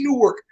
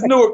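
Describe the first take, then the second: First: The W sound in the middle is pronounced. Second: The W sound in the middle is silent. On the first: The speaker calls it wrong. "it ain't Newark. Stop saying that shit" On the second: The speaker calls it right. "Just say it as if the W was silent"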